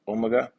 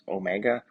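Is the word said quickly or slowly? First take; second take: quickly; slowly. First: The word is said quickly and run together. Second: The word is said at a slower, careful pace.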